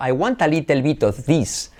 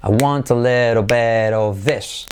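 First: I want a little bit of this with every i said as a clear ee; I want a little bit of this, i's said ee; Spanish i's. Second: I want a little bit of this with little as LEH-do and this as thes; slow, every i turned to e; I want a little bit of this, i's as e, slowly. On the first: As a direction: read it with Spanish i sounds. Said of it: "tenderíamos a pronunciarlo". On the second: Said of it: "todas las is como es". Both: Shown as a demonstration.

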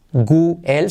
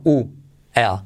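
First: "gu-el" with a hard g before the vowel; hard-g version, "gu-el"; wrong W sound. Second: "U-el" opening on a pure oo, no g; rounded oo start on "U-el"; correct W sound. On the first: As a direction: start "gu-el" with a Spanish g sound. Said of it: "que no es". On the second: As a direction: glide from oo into "el" in "U-el". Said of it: "sino U-el". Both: Shown as a demonstration.

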